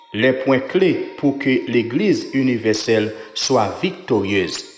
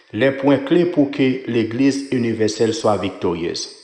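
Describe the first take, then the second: Both takes have the same delivery.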